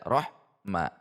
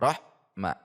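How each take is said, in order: First: There is a pause between the two syllables. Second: There is a pause between the two syllables.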